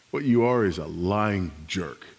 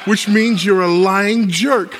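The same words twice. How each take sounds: First: Said in the usual way. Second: Loud, high, drawn-out punchline; triumphant shouted accusation. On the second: Acted. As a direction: shout it slowly as the gotcha. Triumphant punchline after provoking the husband.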